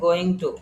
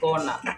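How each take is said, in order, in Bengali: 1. দুটি শব্দই পূর্ণভাবে আলাদা করে বলা হয়। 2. শব্দ দুটি মিশে একটি ছোট, সংক্ষিপ্ত শব্দ হয়ে যায়। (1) "তারপর হচ্ছে গোয়িং টু" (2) "গোয়িং টু কে আমরা বলবো হচ্ছে গনা"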